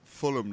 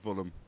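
First: The word begins with an f sound. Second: The word begins with a v sound. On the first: The speaker calls it right. "It's a Fulham" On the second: The speaker calls it wrong. "not Vulham"

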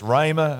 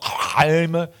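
First: No h sound is pronounced in the word. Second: An h sound is pronounced in the word. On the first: The speaker calls it right. "It's just rhema. Just forget the H" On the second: The speaker calls it wrong. "It's not rhema"

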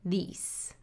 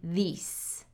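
First: The vowel is a long E. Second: The vowel is a long E.

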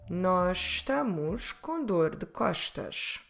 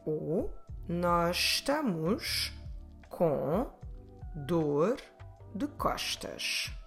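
First: It is said at a faster pace. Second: It is said at a slower pace.

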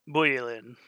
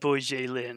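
First: The j is said like a y. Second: The j is said like English j. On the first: The speaker calls it right. "J's are pronounced like Y's" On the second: The speaker calls it wrong. "not Bujelin"

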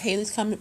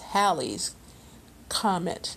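First: The first syllable of 'Halley' rhymes with 'day'. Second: The first syllable of 'Halley' rhymes with 'pal'. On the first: The speaker calls it wrong. "everyone's always pronounced it Halley's Comet" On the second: The speaker calls it right. "people corrected it, and it's Halley's Comet"

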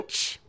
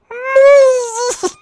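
First: It is said in his usual way. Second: It is said with hugely exaggerated intensity.

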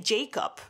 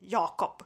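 First: The name begins with a 'j' sound as in 'jam'. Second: The name begins with a 'y' sound as in 'yes'. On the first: This is the usual English way to say the name. "you say Jacob" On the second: This is the Swedish way to say the name. "how we say it in Swedish, but we say it more like Jakob"

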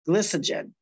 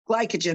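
First: The first vowel is a short I sound. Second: The first vowel is a long I sound. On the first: The speaker calls it wrong. "I might not be pronouncing that right" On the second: The speaker calls it right. "it's a long I instead of a short I"

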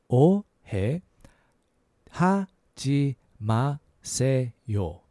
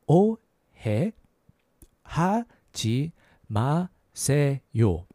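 Both takes have the same delivery.

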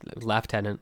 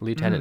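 First: It is said with a British pronunciation. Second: It is said with an American pronunciation.

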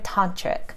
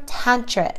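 First: The first syllable sounds like 'ton'. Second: The first syllable sounds like 'tan'.

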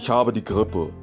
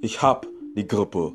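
First: The verb is said in full with two syllables. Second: The verb is shortened to one syllable ending in p. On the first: "instead of saying habe" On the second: "if you wanted to shorten that ... you'll hear hop ... the B sound changes to a P"

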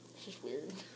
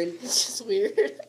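First: It is said softly. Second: It is said loudly.

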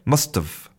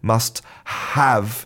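First: The word have is reduced, sounding like of. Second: The word have is pronounced clearly and fully. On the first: "you say must have. And so that contraction of have sounds a lot like of" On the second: "you don't say must have with that clear"

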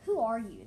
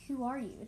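First: It is said in a plain, unsoothing tone. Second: It is said in a soft, soothing tone.

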